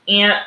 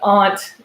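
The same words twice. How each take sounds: First: The word is said with a Midwestern vowel. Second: The word is said with a non-Midwestern vowel. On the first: "That's how you know the Midwest" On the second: "I guess, the correct way"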